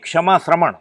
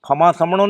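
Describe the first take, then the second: First: It begins with 'ksh' and uses 'shr'. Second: It begins with 'kh' and uses a plain 's'. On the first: This is the original Sanskrit form. The speaker calls it right. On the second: This is the corrupted everyday form. The speaker calls it wrong. "ખમા સમણો નહીં, આ અપભ્રંશ થઈ ગયું છે"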